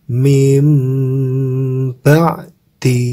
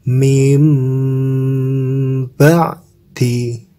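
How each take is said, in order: The two takes are said the same way.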